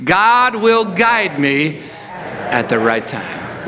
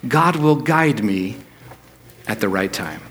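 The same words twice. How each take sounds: First: Very slow, deliberate, every word weighed; slow declaration. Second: Said in the usual way. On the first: Shown as a demonstration. Pastor leading the church to declare it, very slow. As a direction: let each word sink in, slowly. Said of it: "just hear yourself say this". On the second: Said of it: "say this with me".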